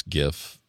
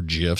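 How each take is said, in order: First: Gif with a hard G, as in "gift". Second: Gif with a soft G, like "jif"; gif said with G as in "gem". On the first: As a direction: start gif on a hard "guh". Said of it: "Depends if it's a hard G". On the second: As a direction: start gif on a J sound. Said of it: "or a soft G". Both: Shown as a demonstration.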